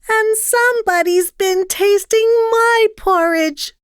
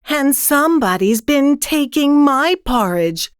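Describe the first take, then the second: First: It is said in a high squeal. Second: It is said in a middle-sized voice.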